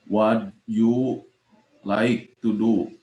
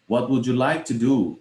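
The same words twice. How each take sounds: First: "What you like to do" slow and broken up with gaps; deliberately poor pronunciation. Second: "would you" linked as "wu-joo", falling on "do"; correct pronunciation. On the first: Teacher testing a wrong attempt, "What you like to do" halting and unlinked. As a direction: drop the "would" sound, pausing between "What you" and "like to do". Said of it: "pronunciation-nya tidak baik atau tidak benar".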